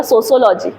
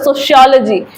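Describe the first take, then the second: First: सोशियोलॉजी said as "sosiology" with a plain s; सोशियोलॉजी pronounced so-so-lo-ji, no sh sound; one regional pronunciation. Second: सोशियोलॉजी said as "soshiology" with a sh; सोशियोलॉजी pronounced so-shi-a-lo-ji with sh; another regional pronunciation. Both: Shown as a demonstration. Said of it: "कोई बोलता है".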